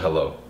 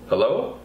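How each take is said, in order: First: The pitch falls at the end. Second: The pitch rises at the end. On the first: It is a firm statement or command. "That's a downswing, declarative command" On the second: It is asked as a question. "That's a question"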